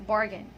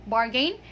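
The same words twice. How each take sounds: First: "bargain" as "BAR-gun", short ending; correct pronunciation. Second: "bargain" as "bar-GAYN" with a long ay; wrong pronunciation. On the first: Teacher gives learners the fix, bargain said correctly. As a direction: reduce the end of "bargain" to a quick "gun". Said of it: "it's bargain". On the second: Teacher contrasts the mistake for learners, mispronounced bargain. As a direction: end "bargain" on a full "gain". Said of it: "so it's not bargain". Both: Shown as a demonstration.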